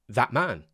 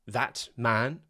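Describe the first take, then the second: First: The T in that is a glottal stop. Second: The T in that is fully pronounced.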